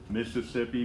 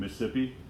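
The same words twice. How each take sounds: First: The word is said slowly and fully. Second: The word is said quickly and clipped.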